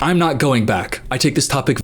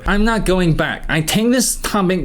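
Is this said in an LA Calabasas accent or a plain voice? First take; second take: plain voice; LA accent. First: It is said in the speaker's ordinary voice. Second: It is said in an imitated LA Calabasas accent.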